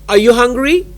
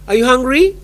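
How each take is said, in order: Both takes have the same delivery.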